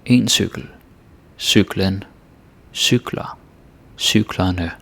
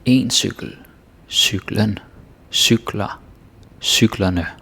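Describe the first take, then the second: First: En cykel, cyklen, cykler, cyklerne said a second time, slow and measured, with pauses; Danish forms repeated. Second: En cykel, cyklen, cykler, cyklerne each said slowly and clearly, with pauses between; Danish forms demo. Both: Shown as a demonstration. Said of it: "this one is kind of predictable".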